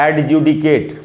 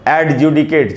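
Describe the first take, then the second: No difference in how they are said.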